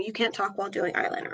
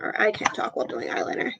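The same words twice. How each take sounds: First: Murmured fast while concentrating; quiet, quick, focused on the brush; applying eyeliner. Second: Fast whisper while concentrating; applying eyeliner. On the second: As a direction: whisper it, eyes on the mirror. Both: Real, not acted. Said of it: "Sorry, I'm not talking".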